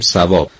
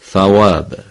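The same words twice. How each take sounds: First: The first sound is a plain 's'. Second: The first sound is a 'th' with tongue between teeth. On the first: This is how Persian speakers say it. "ما میگیم ثواب" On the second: This is how Arabic speakers say it. "اونا میگن ثواب"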